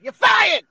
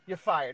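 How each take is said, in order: First: The phrase is said loudly, with strong energy. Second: The phrase is said flatly, with little energy. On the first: The speaker calls it right. "Say it with passion" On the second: The speaker calls it wrong. "Nah, fuck that"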